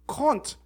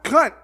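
First: The vowel rhymes with taunt. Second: The vowel does not rhyme with taunt. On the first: The speaker calls it right. "as in taunt" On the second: The speaker calls it wrong.

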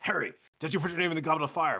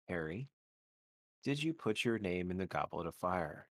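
First: It is said loudly and aggressively. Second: It is said calmly and quietly.

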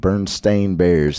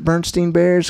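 First: The name ends with a 'stain' sound. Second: The name ends with a 'stein' sound. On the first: The speaker calls it right. "it's definitely Stain" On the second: The speaker calls it wrong. "I want to pronounce it Bernstein Bears because I feel like that's the way it was"

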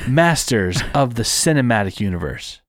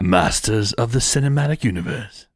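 First: It is said in a plain American accent. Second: It is said in an imitated British accent. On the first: "I could just say it like that, very pronounced" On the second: "You gotta say it in a British accent"

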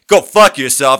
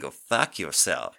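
First: It is said in a mean, hostile tone. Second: It is said in a sexy, teasing tone. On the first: The speaker is angry at the listener. "if you said that in a mean way" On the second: The speaker is playful, not angry. "you as a woman can sexually go"

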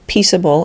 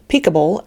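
First: The consonant before -able is a soft S. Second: The consonant before -able is a hard K. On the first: The speaker calls it right. "An E often changes the hard K sound to the soft S" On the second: The speaker calls it wrong. "lest we wonder if these words are to be pronounced"

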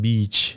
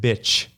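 First: The word has a long vowel sound. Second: The word has a short vowel sound. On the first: The speaker calls it right. "Instead of saying beach" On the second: The speaker calls it wrong. "but I pronounce it bitch"

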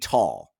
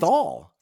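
First: The syllable is said the German way. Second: The syllable is said the English way. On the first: "So the German pronunciation would be Tall" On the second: "I'm saying Thal"

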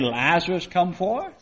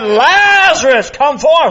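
First: It is said in a quiet voice. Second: It is said in a loud voice.

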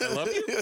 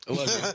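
First: It is said rising like a question. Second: It is said flat and monotone.

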